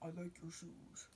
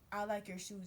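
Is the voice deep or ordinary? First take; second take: deep; ordinary. First: It is said in a deep, low voice. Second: It is said in an ordinary, not deep voice. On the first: "he got that deep voice" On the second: "it wasn't"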